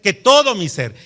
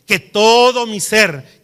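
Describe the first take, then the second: First: Said in the usual way. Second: Todo drawn out slowly and louder; stress on todo. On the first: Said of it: "repeated more lightly". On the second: Shown as a demonstration. Preacher urging the congregation to give everything, slow stress on todo. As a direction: lean hard on todo, slow. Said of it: "preacher stresses the verse".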